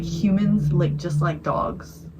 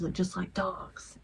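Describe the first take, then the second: First: Slow, deliberate monotone; drawn-out scary-story punchline; creepy note read out. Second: Slow, eerie whisper; hushed, drawn-out reading of a sinister note; creepy whispered note. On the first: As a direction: read it word by word, evenly. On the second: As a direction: whisper it like a scary-story punchline. Creepy note repeated as punchline. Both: Retold or imitated.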